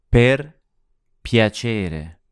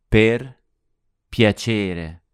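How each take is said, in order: No difference in how they are said.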